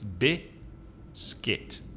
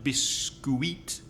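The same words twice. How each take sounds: First: The second syllable has one short vowel sound. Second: Both vowels of the second syllable are pronounced. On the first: The speaker calls it right. "it's just one vowel sound, and the vowel sound is I in the second syllable" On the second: The speaker calls it wrong. "it's not biscuit"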